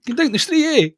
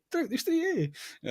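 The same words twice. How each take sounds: First: Laughing mock Edinburgh. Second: Mock Edinburgh accent. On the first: Co-host parroting his friend's Edinburgh joke, laughing mimicry. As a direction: mimic "You drink the street, eh?" through laughter, higher and louder. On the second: Co-host teasing his friend with a mock Edinburgh accent. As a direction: repeat "Drink the street, eh?" higher, in a light mock Edinburgh accent. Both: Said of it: "That's an Edinburgh Uri accent".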